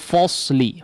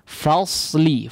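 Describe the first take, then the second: First: The 'fa' sounds thick, with rounded lips. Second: The 'fa' sounds thin, with a full open vowel. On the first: The speaker calls it wrong. "jangan menjadi falsely" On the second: The speaker calls it right. "Tapi fa, falsely"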